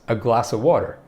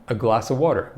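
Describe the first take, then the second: First: The word 'of' is reduced to a bare 'uh'. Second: The same.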